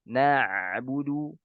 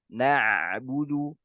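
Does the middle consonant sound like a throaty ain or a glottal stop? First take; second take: ain; ain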